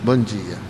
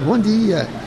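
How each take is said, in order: First: The greeting sounds gloomy and sickly. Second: The greeting sounds cheerful and lively. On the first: The speaker seems ill and unhappy. The speaker calls it wrong. "não tem que dizer assim, bom dia. ... dá a impressão que a gente está com febre amarela" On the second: The speaker shows the joy of living. The speaker calls it right. "Bom dia, né? Alegria de viver"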